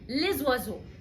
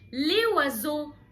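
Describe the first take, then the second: First: The s is pronounced and linked to the next word. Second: The s is silent before the next word. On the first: The speaker calls it right. "فقلت لزوازو" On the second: The speaker calls it wrong. "انا ليه ما قلتش ليه وازو؟"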